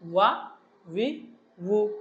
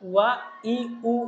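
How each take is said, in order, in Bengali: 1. প্রতিটি শব্দাংশ শুরু হয় ঠোঁট দিয়ে তৈরি একটি w দিয়ে। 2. পরের শব্দাংশগুলোতে w থাকে না, শুরু হয় খালি স্বরবর্ণের মতো। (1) "আমরা ঠোঁট থেকে উচ্চারণ করবো" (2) "যেন ওয়া ই উ এরকম না হয়ে যায়। ই উ যখন বলবো তখন হামজার মতো উচ্চারণ হয়ে যাবে।"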